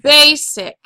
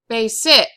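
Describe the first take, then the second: First: The stress is on the first syllable. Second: The stress is on the second syllable. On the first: The speaker calls it right. "put our accent facing that syllable" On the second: The speaker calls it wrong. "If the second syllable was accented, it would be basic. But we don't say it that way"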